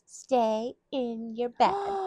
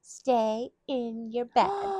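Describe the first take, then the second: First: It is said in a mocking, teasing tone. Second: The same.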